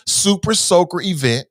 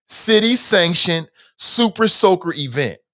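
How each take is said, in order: First: Said in the usual way. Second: Nail the tongue twister cleanly; careful tongue twister. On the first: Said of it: "that is a hell of a tongue twister". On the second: Shown as a demonstration. Vlogger showing viewers how to say it, careful and precise. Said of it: "say that, like, fifteen times".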